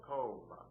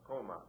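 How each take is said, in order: First: COMA drawn out with the stress on the O. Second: Said in the usual way. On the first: Shown as a demonstration. Teacher showing students where stress falls, "coma" stressed on the O. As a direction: stretch the first syllable of "coma". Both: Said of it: "The stress is over the O".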